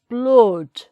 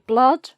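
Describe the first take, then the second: First: The vowel is darker, with lips pushed forward. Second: The vowel is an open, ah-like sound. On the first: "in the northern accent it's" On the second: "in R P would be"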